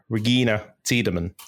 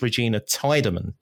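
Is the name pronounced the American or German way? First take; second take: German; American. First: The name is pronounced in the German way. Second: The name is pronounced in the American way. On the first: The speaker calls it right. "which I think is the German pronunciation" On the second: The speaker calls it wrong. "In the American dubbed version, I believe it's"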